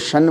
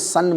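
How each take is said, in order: First: The syllable begins with a 'sh' sound. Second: The syllable begins with an 's' sound. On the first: The speaker calls it right. "शन को शन बोलिए" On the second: The speaker calls it wrong. "सन मत बोलिए"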